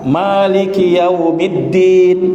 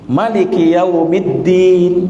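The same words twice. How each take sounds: First: The vowel after the m is drawn out long. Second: The vowel after the m is kept short. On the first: "Boleh dengan mim yang dipanjangkan" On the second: "Boleh juga mimnya dipendekkan"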